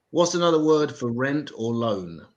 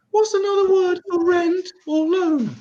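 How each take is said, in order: First: Said in the usual way. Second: Much higher, slower retake; high squeaky repeat. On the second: Shown as a demonstration. Comic repeating the joke for Americans, high squeaky voice. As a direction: squeak the question out high and slow. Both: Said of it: "the other one".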